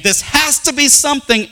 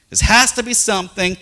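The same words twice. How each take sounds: First: High, louder insistent quote; mock-insistent "This has to be something," said high and louder; insistent group. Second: "has" pressed in the repeat; "This has to be something," repeated with "has" stressed. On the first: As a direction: mimic their certainty. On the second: Shown as a demonstration. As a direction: lean on the word "has". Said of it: "repeated quote".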